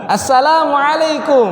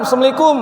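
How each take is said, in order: First: "Assalamualaikum" slow, full and light, higher; proper Arabic salaam. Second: "Assalamualaikum" squeezed to "semliku"; mock lazy greeting, higher; clipped salaam. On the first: Shown as a demonstration. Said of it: "Ya, tipis semua".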